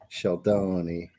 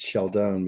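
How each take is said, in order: First: The name ends with a pronounced final vowel. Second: The name ends without a final vowel sound. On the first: "but in Italian, it's Sheldone" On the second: "in English. It's Sheldon because the e is silent"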